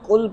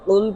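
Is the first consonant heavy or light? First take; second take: light; heavy. First: The first consonant is light and thin. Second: The first consonant is deep and heavy. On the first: Eat. The speaker calls it wrong. "अगर हम इसे पुर नहीं करेंगे" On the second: Say, O beloved. The speaker calls it right. "पुर पढ़ा जाता है"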